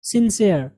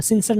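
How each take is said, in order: First: सिंसियर with a long "see-er" ending, falling; correct pronunciation. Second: सिंसियर squashed to "sin-sar"; wrong pronunciation. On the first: Teacher models the right reading, "sin-seer". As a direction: stretch the second part of सिंसियर into "SEE-er". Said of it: "ये क्या है?". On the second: Teacher rejects the common mistake, "sinsar". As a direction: say सिंसियर with a short "sər" ending. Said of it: "सिंसियर नहीं". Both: Shown as a demonstration.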